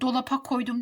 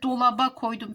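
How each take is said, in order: First: The word keeps a hard p before the ending. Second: The word has a soft b before the ending. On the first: The speaker calls it wrong. "Dolapa demek ne kadar saçma olur" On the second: The speaker calls it right. "P, B'ye dönüşmüş, yumuşamış"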